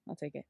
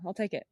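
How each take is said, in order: First: Much softer repeat to herself; quiet echo. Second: Said in the usual way. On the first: Real, not acted. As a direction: murmur it again under breath. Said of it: "repeated softly". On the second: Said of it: "said twice".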